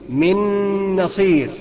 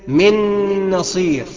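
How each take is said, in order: Both takes have the same delivery.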